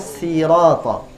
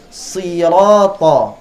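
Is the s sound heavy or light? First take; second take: light; heavy. First: The s sound is light and soft. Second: The s sound is heavy and strong. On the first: The speaker calls it wrong. "bukan sirata" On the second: The speaker calls it right. "dia kuat"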